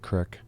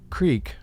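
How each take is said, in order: First: The vowel is a short i, Pittsburgh style. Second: The vowel is a long ee sound.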